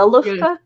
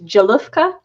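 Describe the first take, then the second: First: The name begins with a Y sound. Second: The name begins with a J sound. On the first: "that's why I went with Ya for the J" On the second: "if I'm reading that correctly, it's Jalufka"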